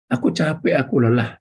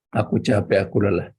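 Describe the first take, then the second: First: Whining shout. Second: Said in the usual way. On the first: Retold or imitated. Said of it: "mulut yang suka berteriak". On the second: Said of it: "orang proaktif tidak pernah berteriak".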